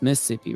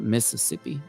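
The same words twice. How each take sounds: First: The second set of s sounds is dropped. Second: All the s sounds are fully pronounced. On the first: This is how a real local says it. The speaker calls it right. "if they don't include that second set, uh, set of S's. So it's" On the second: This is how an outsider says it. The speaker calls it wrong.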